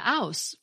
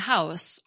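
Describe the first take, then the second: First: The word starts without an h sound. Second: The word starts with an h sound.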